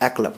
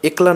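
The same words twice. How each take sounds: First: The first vowel is an open ae sound. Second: The first vowel is a close e sound. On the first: The speaker calls it right. "পড়ব" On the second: The speaker calls it wrong. "না পড়ে"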